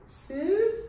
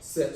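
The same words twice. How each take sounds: First: It is said tentatively, like a question. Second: It is said firmly, like a command. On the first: The dog is being asked, not told. The speaker calls it wrong. "That sounds like a question" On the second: The dog is being told what to do. The speaker calls it right. "A little bit more assertive"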